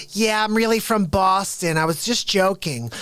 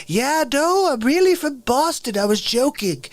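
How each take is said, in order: First: A touch higher, lightly put-on wife confessing; half-hearted impression of the wife owning up; mild mocking wife voice. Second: Much higher, airy put-on wife confessing; mocking wife voice. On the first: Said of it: "And she's like". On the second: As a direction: squeak it out like a caught fibber. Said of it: "pretend when you come out and you say".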